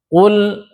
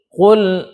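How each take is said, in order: The two takes are said the same way.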